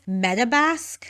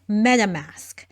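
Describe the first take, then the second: First: The last part starts with a B sound. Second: The last part starts with an M sound. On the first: The speaker calls it wrong. "she says Metabask, which isn't correct" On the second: The speaker calls it right. "It is MetaMask"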